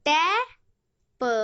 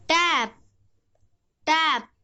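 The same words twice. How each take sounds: First: टै and प said as two separate sounds; phonics-style टै, then a short lone प; sounded out. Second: टै and प joined into one word टैप; टैप blended, closing on the प sound. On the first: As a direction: break it into टै, pause, प. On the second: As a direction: say टैप whole, then repeat it. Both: Shown as a demonstration. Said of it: "पी का उच्चारण है".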